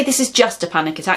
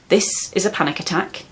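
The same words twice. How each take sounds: First: Quick, brushing it off with "just"; dismissive. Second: Calm, steady statement, falling at the end; reassuring. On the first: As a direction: minimise it, as if it's nothing. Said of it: "Don't say". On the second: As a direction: say it plainly and kindly, without belittling. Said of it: "is deeply reassuring". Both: Shown as a demonstration.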